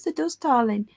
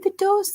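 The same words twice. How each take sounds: First: Said in the usual way. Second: Sudden high squeal of agreement; high mock agreement. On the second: Real, not acted. Agreeing with the chat about shared names, squealed up high. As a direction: jump way up on "There does" like a mock gasp.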